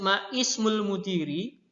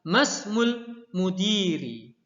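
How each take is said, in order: First: The initial vowel of ismu is pronounced separately. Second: The initial vowel of ismu is dropped and linked. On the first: "meskipun ya di situ tertulis maismul mudiri" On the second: "tapi kita bacanya adalah masmul mudiri"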